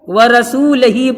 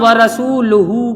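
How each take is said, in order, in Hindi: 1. अंतिम अक्षर 'hi' की तरह बोला जाता है। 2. अंतिम अक्षर 'hu' की तरह बोला जाता है।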